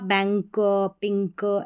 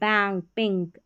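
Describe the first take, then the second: First: The words are said slowly in separated parts. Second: The words are said smoothly as whole units. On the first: "शुरुआत में आप बैंक पिंक ऐसे पढ़ सकते हैं" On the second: "ऐसे सही पढ़ना है"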